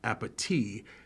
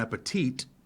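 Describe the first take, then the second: First: The final T sound is silent. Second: The final T sound is pronounced. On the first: The speaker calls it right. "It's supposed to be pronounced" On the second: The speaker calls it wrong. "pronouncing it with a T"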